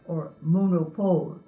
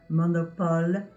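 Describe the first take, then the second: First: The vowels are English-style O sounds. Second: The vowels are open French O sounds. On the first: The speaker calls it wrong. "you might say ... But that's not the way they're pronounced in French" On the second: The speaker calls it right. "this is the vowel sound that you have in words like"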